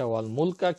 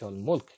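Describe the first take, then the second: First: The word ends with an 'a' vowel. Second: The word ends on the consonant 'k'. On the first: "আরবিতে আছে" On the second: "কিন্তু আমি দিয়েছি"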